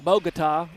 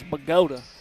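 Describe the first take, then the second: First: Bogota is pronounced as it is spelled. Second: Bogota is pronounced in a local East Texas way. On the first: "if you pronounce it phonetically" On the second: "But here in East Texas, it's"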